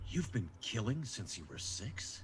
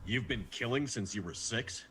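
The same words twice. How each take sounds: First: The question is asked with warm compassion. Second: The question is asked in a neutral tone.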